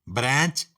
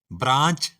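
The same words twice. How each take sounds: First: Branch with a flat "ae"; flat American vowel in branch. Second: Branch with a broad "aa"; British branch. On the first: Teacher listing the American form of branch, flat "ae". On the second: Teacher listing the British form of branch, broad "aa". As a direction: open British vowel in branch. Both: Shown as a demonstration. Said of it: "इसी तरह".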